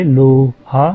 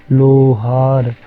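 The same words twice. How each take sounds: First: Said in the usual way. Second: लोहार very slow, o stretched well past लोहा; teacher contrasting लोहा with a long-o लोहार; long o demo. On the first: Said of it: "लोहा बोलिए". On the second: Shown as a demonstration. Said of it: "ओ को लंबा खींच दिया हमने".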